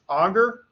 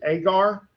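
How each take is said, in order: First: The word is given its older, once-taught pronunciation. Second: The word is given its current, most common pronunciation. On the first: This is how it was taught many years ago. "I was taught, again, many more years ago than I care to think about, uh, that, word, that word was pronounced auger" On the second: This is how most people say it now. "now most people pronounce it agar"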